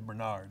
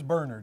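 First: The name is said the American way. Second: The name is said the British way. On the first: "If you live in America, it's Bernard" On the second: "If you live in England, it's Bernard"

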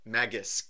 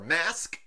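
First: It is said like 'magic' with an added S. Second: It is said as one syllable, like 'mask'. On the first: "like magic, but with an S in there" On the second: "as I think is how I pronounce it in the past, which I'm pretty sure is wrong"

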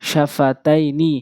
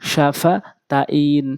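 First: The word ends with its full final ending sounded. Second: The word stops on its final consonant.

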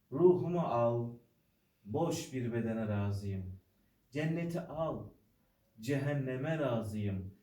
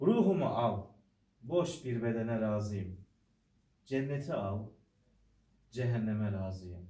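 No difference in how they are said.

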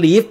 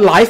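First: The vowel is a short 'ih' sound. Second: The vowel is a long 'eye' sound. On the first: It means to reside somewhere. "เขียนเหมือนกันเลยแต่ออกเสียงว่า" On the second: It describes something broadcast as it happens. "ส่วนไอ้ที่ถ่ายทอดสด LIVE นะครับออกนั้นก็เสียงว่า"

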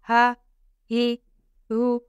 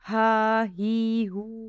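First: The vowels are kept short. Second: The vowels are drawn out long. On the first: The speaker calls it right. "हमने ज़बर ज़ेर पेश को ज़रा भी खींच कर नहीं अदा करना" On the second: The speaker calls it wrong. "हा ही हू ऐसे पढ़ देते हैं"

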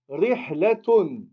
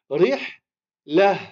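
First: The word ends with a t sound and -un. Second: The word ends softly in -ah, no t sound. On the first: Another word follows after it. "on va le prononcer comme un T" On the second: The speaker stops on this word. "On va la prononcer comme un hé"

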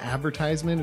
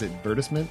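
First: The word uses the speaker's usual everyday pronunciation. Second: The word uses an alternative, fancier-sounding pronunciation. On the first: "instead of advertisement" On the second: "It just sounds cooler"

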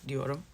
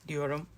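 The two takes are said the same way.

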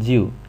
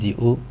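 First: The syllable is said in the departing tone. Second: The syllable is said in the rising tone. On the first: "一个是去声ju" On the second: "一个是上声ju"

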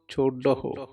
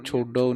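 First: The word ends with a full 'dahu' sound. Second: The word ends with a short 'do' sound. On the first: The speaker calls it right. "ਹਾਹੇ ਦੀ ਔਂਕੜ ਬੋਲਣੀ ਹੈ" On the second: The speaker calls it wrong. "ਛੋਡੋ ਨਹੀਂ ਕਹਿਣਾ"

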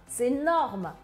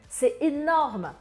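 Both takes have the same delivery.

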